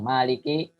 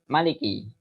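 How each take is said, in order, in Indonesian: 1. Vokal pertama dibaca panjang. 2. Vokal pertama dibaca pendek. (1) "Ada yang baca panjang" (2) "ada yang baca pendek"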